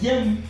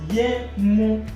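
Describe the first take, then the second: First: The u is dropped, giving one syllable. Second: Both syllables are said, ending with a u.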